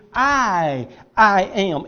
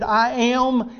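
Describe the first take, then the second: First: "I" drawn out alone, then repeated into "I am"; weighty, separated "I", then "I am"; emphatic I AM. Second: Said in the usual way. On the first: Shown as a demonstration. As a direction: stretch the first "I" and pause before "I am". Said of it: "It's emphatic". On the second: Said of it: "literally in the original language it would be".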